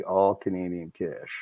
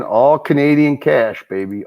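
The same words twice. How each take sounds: First: Softer, lower repeat under the breath; quiet echo. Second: Louder, punchy hype call; hyped-up. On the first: Host echoing his own hype line to himself, quiet and low. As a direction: mutter it back to yourself. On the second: Host hyping donation totals to the chat, excited and punchy. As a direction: sell it like a game show win. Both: Pretend.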